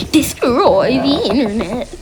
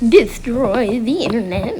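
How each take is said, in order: First: Slow, deliberate "Destroy the internet" with a punched "the"; measured robot-command read; slow firm command. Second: Said in the usual way. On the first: Shown as a demonstration. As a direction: dictate it slowly to the machine. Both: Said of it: "repeats the command".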